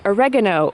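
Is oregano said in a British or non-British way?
non-British. It is said the non-British way.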